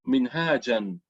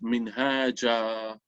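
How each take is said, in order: First: The word ends with an n sound. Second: The word ends with a long vowel. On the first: The word is read within continuous recitation. "you will pronounce it something like minhajan" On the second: The word is read at a pause. "when you read that particular word in prose, then you can read it, you read it minhaja"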